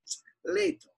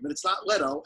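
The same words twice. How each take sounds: First: "Leto" sung out high with an Italian lilt; proper Italian Leto. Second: "Leto" said with a plain long e, the wrong way; the first wrong version, a flat "Leto"; pron Leto. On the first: Proudly revealing his name the Italian way. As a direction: show off the true Italian way to say "Leto". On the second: Explaining his name, the wrong Leto said plainly. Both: Shown as a demonstration. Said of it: "how to actually say my last name".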